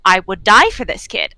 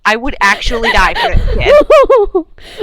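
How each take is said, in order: First: Said in the usual way. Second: Louder laughing repeat; overjoyed laughing vow; laughing emphasis. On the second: Acted. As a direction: laugh it out with feeling. Repeated with more force.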